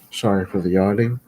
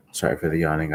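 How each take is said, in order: First: Apology with the yawn still in it. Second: Said in the usual way. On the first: Real, not acted. Tired vlogger apologizing to viewers, still yawning.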